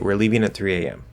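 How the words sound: The voice falls at the end. It is a plain statement giving the information. "that also falls"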